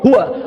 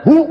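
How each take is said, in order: First: The word ends with a full 'wa' syllable. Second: The word ends after 'hu' with no 'wa'. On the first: The reading continues without stopping. "Wa'nya anda dibaca" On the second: The reading stops at this word. "Wakaf di hu"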